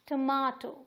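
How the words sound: The middle vowel is an open 'ah' sound. This is the British way. "UK में हम बोलेंगे इसे टमाटो"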